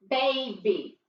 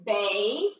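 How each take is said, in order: First: Said in the usual way. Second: Put-on "baby" with the first syllable drawn out; teacher sounding out a word; sounded-out syllable. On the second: Shown as a demonstration. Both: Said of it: "Listen to it sounds".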